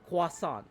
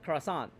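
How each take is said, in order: First: It is said with a French-style pronunciation. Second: It is said with an English-style pronunciation. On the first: The speaker calls it right. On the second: The speaker calls it wrong.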